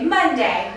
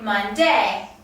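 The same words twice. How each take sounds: First: The stress is on the first syllable. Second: The stress is on the second syllable. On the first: The speaker calls it right. "the stress is naturally put on the first syllable. So we say Monday" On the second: The speaker calls it wrong. "We don't say Monday"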